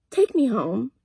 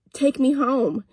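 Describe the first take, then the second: First: Dead calm, even and cool; calmest voice. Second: Said in the usual way. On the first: Retold or imitated. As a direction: say it icily calm, no drama. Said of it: "in the calmest voice, just like this". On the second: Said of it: "I didn't say it for fun".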